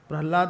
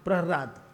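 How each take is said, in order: First: The name is said with an L sound. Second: The name is said with an R sound. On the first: The speaker calls it wrong. "प्रहलाद नहीं" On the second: The speaker calls it right. "हृ हृ है"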